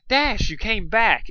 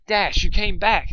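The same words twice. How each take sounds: First: Slow, loud, high joyful cry; joyful welcome, higher and louder; happy exclaim. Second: Slow, loud, high joyful cry; joyful retake, higher and louder; happy exclaim, retake. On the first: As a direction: greet her with delight. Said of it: "exclaimed with happiness". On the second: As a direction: welcome her back gladly. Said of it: "exclaimed Dusk with happiness". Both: A narrator's reading.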